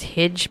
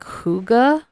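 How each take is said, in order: First: The word ends with a soft 'j' sound. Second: The word ends with a 'ga' syllable. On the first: The speaker calls it wrong. "I actually butchered the pronunciation as Hidge" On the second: The speaker calls it right. "but it's actually like Huga"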